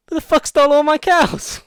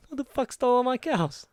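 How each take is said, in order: First: Very high, very loud mock yell; outraged yell. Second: High, loud mock outrage; repeated yell. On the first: Farmer finding his cows gone, outraged high yell. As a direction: bellow it up at the sky, outraged. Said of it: "looks up and goes". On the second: Friend repeating the farmer's line for her pal, high mock yell.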